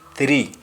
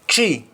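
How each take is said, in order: First: It begins with a 'th' sound. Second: It begins with a plain 't' sound. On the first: "In English, we say three" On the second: "in Jamaican, we say tree to mean three"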